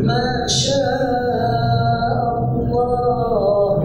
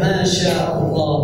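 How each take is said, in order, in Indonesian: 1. Dipanjangkan, dengan bunyi sengau yang ditahan. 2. Diucapkan biasa saja, dengan kecepatan percakapan. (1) "gak perlu gitu ya"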